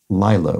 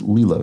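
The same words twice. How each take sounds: First: It sounds like the everyday noun for a pool. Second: It sounds like the name used in the film. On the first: The name is mistaken for an everyday noun. The speaker calls it wrong. "I was pronouncing it like the term for the outdoor pool" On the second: The name is given its proper form. The speaker calls it right. "it's pronounced Lilo"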